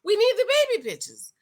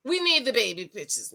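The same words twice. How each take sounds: First: High, fast demand; insistent demand. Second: Said in the usual way. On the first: Real, not acted. Vlogger demanding proof from Justin, high insistent demand. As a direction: press the point hard and quick. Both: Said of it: "I'm sorry".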